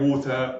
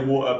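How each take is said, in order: First: It is said in a careful, standard style. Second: It is said in a casual London style.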